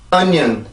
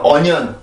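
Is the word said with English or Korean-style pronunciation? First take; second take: English; Korean-style. First: It is said with a clear stressed syllable. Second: It is said flatly, with no stressed syllable. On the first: The speaker calls it right. "이렇게 발음을 해주셔야 정확한 발음이에요" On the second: The speaker calls it wrong. "이거는 강세가 없죠"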